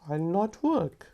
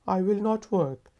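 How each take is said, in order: First: I and will merge into one contracted word. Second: I and will are said as two full words. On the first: "आमतौर पे हम इसको लिखते और बोलते ऐसे हैं" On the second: "मेरे साथ बोलें"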